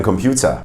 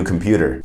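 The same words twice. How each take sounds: First: COMPUTER as "kom-PYOO-ta" within German; German accent on COMPUTER; German-accented English. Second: Said in the usual way. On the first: Shown as a demonstration. Teacher acts a German exchange, German accent. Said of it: "but with a German accent". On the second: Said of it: "we don't pronounce it as computer".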